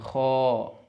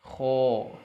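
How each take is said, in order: Both takes have the same delivery.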